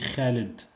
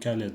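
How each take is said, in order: First: It starts with a harsh throaty kh sound. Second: It starts with a plain k sound. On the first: This is how it is said in Arabic. "en arabe, on dit Khaled" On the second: This is how it is said in French. "En français, on dit Khaled. On ne prononce pas le H en français"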